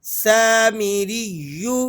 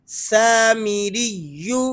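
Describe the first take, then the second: No difference in how they are said.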